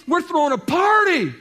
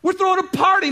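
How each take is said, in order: First: Shouting father. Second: Even higher and louder, bursting with glee; overjoyed father repeating the news; laughing, jubilant. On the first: First take of the line. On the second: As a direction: cry out the party news with a laugh. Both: Acted.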